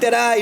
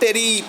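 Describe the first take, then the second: First: The last syllable sounds like 'eye'. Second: The last syllable sounds like 'ee'. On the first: The speaker calls it right. "Now comes in terai" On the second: The speaker calls it wrong. "not teri"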